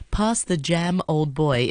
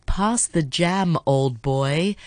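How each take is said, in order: First: Said in the usual way. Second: Put-on "Pass the jam, old boy" drawn out slowly, each word separate; slow careful demo. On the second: Shown as a demonstration. Host slowly demonstrating the English phrase to listeners, slow and deliberate. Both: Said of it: "if you say it really fast".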